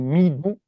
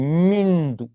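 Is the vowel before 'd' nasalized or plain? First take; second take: plain; nasalized. First: The syllables are said plainly without nasalization. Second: A nasal sound joins the syllables together. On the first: The speaker calls it wrong. "on ne va pas prononcer mi do" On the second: The speaker calls it right. "mais mindu"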